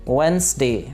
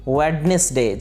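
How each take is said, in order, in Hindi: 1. बीच का "d" silent है। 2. बीच का "d" बोला जाता है। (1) "डी इसके अंदर साइलेंट है" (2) "इसे गलती से प्रोनाउंस किया जाता है वेडनेसडे, जो कि गलत है"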